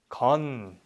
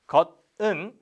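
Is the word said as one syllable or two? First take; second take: one; two. First: It is shortened into a single syllable. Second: It is said fully as two syllables. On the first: The speaker calls it right. "if they got shortened, it becomes 건" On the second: The speaker calls it wrong. "we never really say it like, like that"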